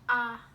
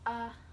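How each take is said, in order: First: The vowel is said with the mouth wide open. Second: The vowel is said with the mouth barely open. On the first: The speaker calls it right. "bener-bener dibuka biar suaranya itu yang keluar sempurna" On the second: The speaker calls it wrong. "jangan kayak a"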